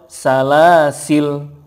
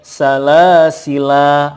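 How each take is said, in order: First: The word ends on a bare consonant. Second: The word ends with a long vowel. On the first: "atau sukun" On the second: "boleh panjang"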